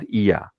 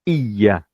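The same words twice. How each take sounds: First: The y sound is short and single. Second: The y sound is held long and doubled. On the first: The speaker calls it wrong. "It's not Iya" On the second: The speaker calls it right. "There's a shadda here"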